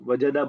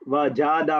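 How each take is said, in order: First: The middle vowel is kept short. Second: The middle vowel is drawn out long. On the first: The speaker calls it right. "बोलो" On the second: The speaker calls it wrong. "मत बोलो"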